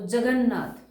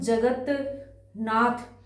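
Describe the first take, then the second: First: Said quickly as one word, t becoming n. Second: Said slowly with a gap, keeping the t. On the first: "लेकिन हम जल्दी बोलेंगे तो जगन्नाथ अपने आप हो जाएगा" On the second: "अगर हम जगत नाथ ऐसे बोलेंगे तो तय को तय ही रहेगा"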